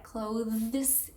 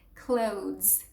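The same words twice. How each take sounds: First: The TH sound is clearly and fully pronounced. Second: The TH sound is soft and barely heard. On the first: The speaker calls it wrong. "it's not that clothes" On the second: The speaker calls it right. "you don't even make it super uh, evident"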